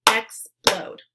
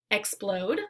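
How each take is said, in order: First: "Explode" said in two beats, EX-PLODE; syllable-by-syllable; syllables split. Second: Said in the usual way. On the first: Shown as a demonstration. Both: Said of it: "break it into the two syllables".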